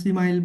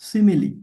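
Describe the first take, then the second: First: It is said with two syllables, rhyming with 'smile'. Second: It is said with three syllables, ending in 'lee'. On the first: The speaker calls it wrong. "অনেকে আবার সিমাইল বলতে পারেন, কিন্তু এটা ভুল" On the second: The speaker calls it right. "উচ্চারণটা কি? সিমিলি।"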